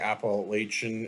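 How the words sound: It is said the northern US way. "In the north, they say Appalachian"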